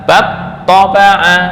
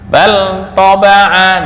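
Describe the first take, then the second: First: The l sound merges into the next consonant. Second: The l sound is pronounced clearly.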